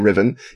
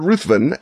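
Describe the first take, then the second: First: The name is said without a 'th' sound. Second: The name is said with a 'th' sound. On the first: This is the form an expert says is correct. The speaker calls it right. "who says it's pronounced Riven" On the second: This is the familiar form listeners will recognize. The speaker calls it wrong. "when you hear me say Ruthven, know that I'm doing it a purpose"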